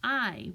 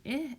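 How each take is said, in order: First: "I" as the long aɪ of kite; long i sound. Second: "I" as the short ɪ of pig; short i sound. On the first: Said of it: "I'm hearing I, which matches kite". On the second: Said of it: "I'm not hearing I anymore". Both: Shown as a demonstration. Teacher contrasting vowels for kids.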